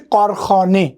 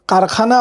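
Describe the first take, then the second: First: The first vowel is a rounded 'aw'. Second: The first vowel is an open, unrounded 'ah'. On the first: This is how a native Persian speaker says it. The speaker calls it right. "You have to से कारखाने. ऑच म्हणायचं" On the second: This is the Indianized way of saying it. The speaker calls it wrong. "कारखाना आपण जसं म्हणतो"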